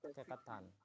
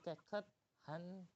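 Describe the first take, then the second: First: It is said quickly and the h is dropped. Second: The first part is stressed and the h is heard. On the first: "Kalau mau baca cepat" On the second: "menegaskan keket ... hiatnya tersebut bisa kebaca"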